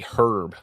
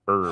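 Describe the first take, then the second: First: It is said the British way. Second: It is said the American way. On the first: "They say herb" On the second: "and not herb"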